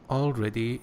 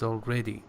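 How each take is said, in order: First: The stress is not on the second syllable. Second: The stress is on the second syllable. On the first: The speaker calls it wrong. "you said already" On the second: The speaker calls it right. "Second syllable"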